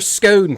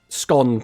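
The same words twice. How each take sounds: First: The vowel is long, rhyming with bone. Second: The vowel is short, rhyming with gone. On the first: "type type like O N E in the chat" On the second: "put O N in the chat"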